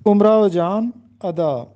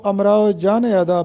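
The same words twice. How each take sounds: First: امراؤ said as "umrao" with an opening u; امراؤ Jaan ادا spoken "umrao jaan ada"; correct pronunciation. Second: امراؤ read as "amrao" with an opening a; امراؤ Jaan ادا spoken wrongly as "amrao jaan ada"; common wrong pronunciation. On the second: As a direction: demo of the mistake in امراؤ. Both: Shown as a demonstration. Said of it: "جو کہ غلط ہے".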